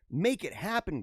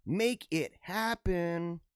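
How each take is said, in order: First: Said in the usual way. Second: Very slow, each word stretched; drawn-out urging. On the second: Acted. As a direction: stretch out HAPPEN for mock-dramatic effect. Repeats it drawn out for effect.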